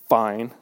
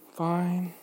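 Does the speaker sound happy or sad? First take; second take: happy; sad. First: The word sounds cheerful and upbeat. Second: The word sounds low and glum. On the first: Things are going well. "so I'm aiming for happy" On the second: Things are not really going well. "Sarcasm. Well, a bit of sarcasm, but yeah, sad"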